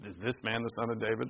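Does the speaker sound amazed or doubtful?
doubtful. It is said with a doubtful, skeptical tone. The asker doubts it is true. "Some believe and some don't"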